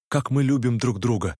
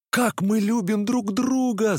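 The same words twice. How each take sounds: First: Said in the usual way. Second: High, slow, ringing cry; exclaimed. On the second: A narrator's reading. Narrator echoing Nastenka, a high slow cry. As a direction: throw the words out in a slow cry, voice pitched high. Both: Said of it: "закричал я".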